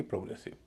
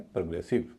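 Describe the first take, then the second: First: प्रोग्रेसिव with a full "pro"; rounded o at the start of प्रोग्रेसिव; wrong pronunciation. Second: प्रोग्रेसिव as "prə-GRE-siv"; light schwa opening on प्रोग्रेसिव; correct reduced vowel. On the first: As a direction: say प्रोग्रेसिव as "pro-GRE-siv", tossed off softly. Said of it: "न कि". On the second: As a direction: weaken प्रो to प्र, stress ग्रे in प्रोग्रेसिव. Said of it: "ओ यहाँ पर हल्का हो जाएगा". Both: Shown as a demonstration.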